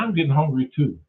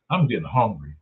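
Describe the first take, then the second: First: Reply at an ordinary pitch; lightly voiced Eve. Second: Low-pitched hungry remark; lightly voiced Adam. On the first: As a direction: lightly act Eve agreeing, near the usual voice. Adam and Eve dialogue, reply. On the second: Adam and Eve dialogue, first speaker.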